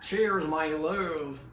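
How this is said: It is said in an American accent. "Ça, c'est mon accent américain"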